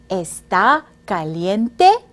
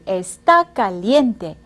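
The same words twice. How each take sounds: First: The voice rises at the end. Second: The voice falls at the end.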